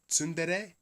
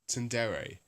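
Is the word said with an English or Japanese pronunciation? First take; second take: Japanese; English. First: It is said with a Japanese-style pronunciation. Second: It is said with an English-style pronunciation. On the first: "try and do the Japanese pronunciation" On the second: "completely forego the Japanese pronunciation"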